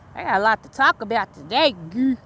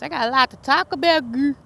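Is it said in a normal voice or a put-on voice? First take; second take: normal; put-on. First: It is said in her normal voice. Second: It is said in her put-on voice.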